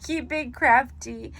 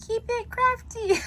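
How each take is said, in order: First: Slower, firmer take, crafty landing with a fall; deliberate catchphrase. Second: Very high, goofy squeal on crafty; squeaky catchphrase. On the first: Crafter redoing her sign-off catchphrase, slow and steady. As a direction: say the catchphrase properly, slow and sure. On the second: Crafter's first try at her sign-off catchphrase, squeaky high. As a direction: blurt the catchphrase in a silly high voice. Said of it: "I'm such a dork". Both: Real, not acted.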